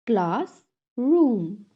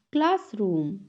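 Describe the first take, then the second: First: "Classroom" split as class, room; syllable by syllable. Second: Said in the usual way. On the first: Shown as a demonstration. Teacher has class repeat, "Classroom" broken in two. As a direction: clear pause between the halves of "Classroom". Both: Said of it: "टू syllables में divide".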